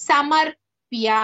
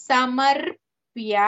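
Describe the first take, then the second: No difference in how they are said.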